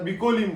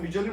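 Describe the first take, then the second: First: The middle consonant is a k sound. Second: The middle consonant is a ch sound. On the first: This is how an outsider says the name. The speaker calls it wrong. "तो येवन सांगता बिकोलीम म्हणून" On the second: This is how local people say the name. The speaker calls it right. "ते सगळे आमी बिचोलीम म्हणटा"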